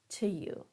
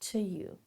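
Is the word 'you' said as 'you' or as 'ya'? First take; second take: you; you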